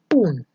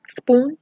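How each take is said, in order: First: The word begins without any s sound. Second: The word begins with a clear s sound. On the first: The speaker calls it wrong. "you hear poon" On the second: The speaker calls it right. "instead of saying spoon"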